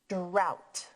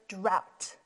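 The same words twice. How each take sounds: No difference in how they are said.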